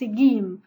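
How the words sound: It is said with the Egyptian colloquial pronunciation. This is everyday local usage. The speaker calls it wrong. "dans certains pays, comme chez nous en Égypte, on le prononce Gim"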